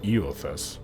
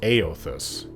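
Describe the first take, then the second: First: The name begins with an 'ee' sound. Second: The name begins with an 'ay' sound. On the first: It is read straight from the spelling. The speaker calls it wrong. "so you would think Eothas" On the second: It is said the way the game says it. The speaker calls it right. "it's pronounced Aothas in the game"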